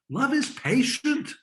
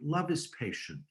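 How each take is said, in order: First: It is read forcefully, with a raised, scolding voice. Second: It is read softly and sweetly, like a poem. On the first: It is a rebuke to people doing it wrong. The speaker calls it right. "This is a locker room. This is a coach saying" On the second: It is a sweet wedding sentiment. The speaker calls it wrong. "rather than reading it like this"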